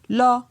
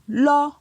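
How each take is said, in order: First: The syllable is said on a mid tone. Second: The syllable is said on a high tone. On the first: "Pour un ton moyen" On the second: "Pour un ton haut"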